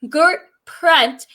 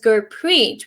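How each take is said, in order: First: The name ends with a short 'pratt' sound. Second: The name ends with a long 'preet' sound. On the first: The speaker calls it wrong. "used to pronounce my name Gert Pratt" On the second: The speaker calls it right. "my name is Gurpreet"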